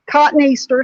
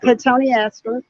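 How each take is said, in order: First: The name sounds like the words 'cotton Easter'. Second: The name does not sound like 'cotton Easter'.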